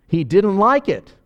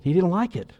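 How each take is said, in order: First: Louder, slower "He didn't like it." with weight on "like"; emphatic repeat. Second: Said in the usual way. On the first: Shown as a demonstration. Preacher repeating to drive the point home, slow and loud. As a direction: lean hard on "like", slowly.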